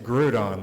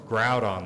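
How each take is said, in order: First: The first syllable sounds like 'group'. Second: The first syllable sounds like 'ground'. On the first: "it's Groudon, like Groupon" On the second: "it's Groudon, like ground"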